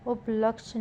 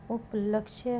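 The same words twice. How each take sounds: First: उपलक्ष्य cut to up-laksh, no y; wrong pronunciation. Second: उपलक्ष्य said as up-laksh-ye; correct pronunciation. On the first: Teacher showing a spelling error, उपलक्ष्य as up-laksh. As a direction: end उपलक्ष्य on the sh. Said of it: "नहीं". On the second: Teacher giving the correction, उपलक्ष्य with final ya. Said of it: "होगा". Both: Shown as a demonstration.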